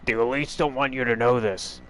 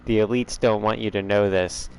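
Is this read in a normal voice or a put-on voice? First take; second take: put-on; normal. First: It is read in a put-on character voice. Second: It is read in the speaker's normal voice.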